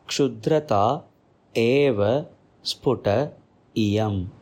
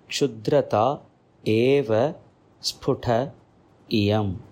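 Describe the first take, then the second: First: The words are said separately, each one distinct. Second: The words are said separately, each one distinct.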